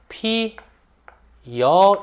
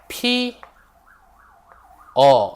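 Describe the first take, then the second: First: The second syllable begins with a 'y' glide. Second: The second syllable is a plain 'eo' vowel. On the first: "어로 발음하는 게 아니라 여로 발음을 하지" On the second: "예를 들어서 피, 어 라고 했어"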